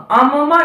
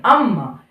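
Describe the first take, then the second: First: अम्मा with first म as a full syllable; split double consonant. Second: Said in the usual way. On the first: Shown as a demonstration. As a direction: say अम्मा as "a-ma-maa". (अम्मा में पहले म को पूरा बोलते हुए) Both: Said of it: "अम्मा नहीं".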